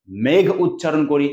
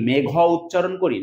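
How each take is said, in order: First: "মেঘ" slow, stopped on the gh; consonant-final pronunciation. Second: "মেঘ" with an open vowel after gh, "megho"; added final vowel. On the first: Teacher giving the usual form, "মেঘ" as one closed syllable. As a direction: say "মেঘ" with no vowel at the end. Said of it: "এই যে মেঘ উচ্চারণ করছে". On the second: Teacher asking whether we say it so, "মেঘ" as two syllables. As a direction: sound a final o on "মেঘ", as a question. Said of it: "না". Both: Shown as a demonstration.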